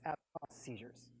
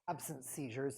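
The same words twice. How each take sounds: First: Absence is pronounced with a French-sounding ending. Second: Absence is pronounced as an ordinary English word. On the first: The speaker calls it right. "it's absence seizures" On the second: The speaker calls it wrong. "it's not absence seizures"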